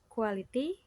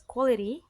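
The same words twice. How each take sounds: First: The word is said with a learner's mispronunciation. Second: The word is said with a standard pronunciation. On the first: The speaker calls it wrong. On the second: The speaker calls it right.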